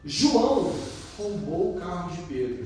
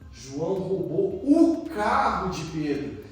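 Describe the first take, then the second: First: The emphasis falls on the word João. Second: The emphasis falls on the word carro. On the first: It was João, of all people, who did it. "nossa, João fez isso?" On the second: What was lost was the car. "Nossa, ele perdeu o carro, vai andar a pé"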